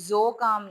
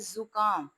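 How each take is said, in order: First: The first vowel sounds like o. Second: The first vowel sounds like short u. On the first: The speaker calls it wrong. "ज़ो काम नहीं है" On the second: The speaker calls it right. "ये है ज़ुकाम"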